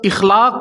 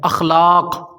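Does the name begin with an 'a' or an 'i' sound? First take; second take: i sound; a sound. First: The first vowel is 'i'. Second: The first vowel is 'a'. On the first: The speaker calls it wrong. "हमज़ा पर ज़ेर के साथ" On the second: The speaker calls it right. "हमज़ा पर ज़बर है"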